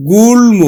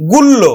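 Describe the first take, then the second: First: গুল্ম with a clearly sounded m after l; correct pronunciation. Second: গুল্ল with a doubled l and no m; mistaken pronunciation. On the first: Teacher giving students the real reading, গুল্ম with audible m. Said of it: "আসলে উচ্চারণ হবে". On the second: Teacher showing students the wrong reading, গুল্ল with double l. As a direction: say গুল্ল, the m lost into a long l. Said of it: "ম ফলার নিয়ম অনুযায়ী কি উচ্চারণ করব". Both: Shown as a demonstration.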